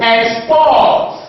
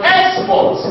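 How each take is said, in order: First: "Export" as ex-PORT, weight on the second syllable; second-syllable stress. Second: "Export" as EX-port, high on the first syllable; first-syllable stress. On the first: Teacher demonstrates the verb to students, "Export" stressed on PORT. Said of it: "stress on the second syllable". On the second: Teacher demonstrates the noun to students, "Export" stressed on EX. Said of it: "stress will be on the first syllable". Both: Shown as a demonstration.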